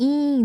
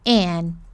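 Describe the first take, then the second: First: The vowel is a bright, spread-lip ee sound. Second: The vowel is a short, closed, relaxed sound. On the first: The speaker calls it wrong. "não é um i sorridente" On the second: The speaker calls it right.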